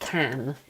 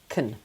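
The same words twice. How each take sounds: First: The vowel is a full, strong a. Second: The vowel is weak and reduced. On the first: "the strong version of can" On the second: "unstressed, weak sound"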